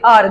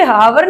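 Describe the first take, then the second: First: आर starting straight on the vowel; silent H. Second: हावर with an audible H at the start; H sounded wrongly. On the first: Teacher giving the correct reading of hour, आर with silent H. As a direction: drop the H, say आर. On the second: Teacher warning students off a misreading, हावर with H sounded. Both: Shown as a demonstration. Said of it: "इसे हावर नहीं पढ़ते".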